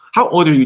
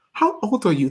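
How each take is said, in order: First: Said in the usual way. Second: Higher, tentative British accent; amateur British accent; attempted British accent. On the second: Shown as a demonstration. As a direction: have a shaky go at a British accent. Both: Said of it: "I can't do that accent".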